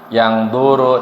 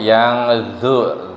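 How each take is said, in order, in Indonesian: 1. Konsonan itu hambat, tanpa aliran udara. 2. Konsonan itu frikatif, dengan aliran udara. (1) "bukan yang duru" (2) "tapi yang zu, zodnya mengeluarkan mengeluarkan udara"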